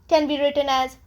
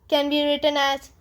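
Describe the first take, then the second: No difference in how they are said.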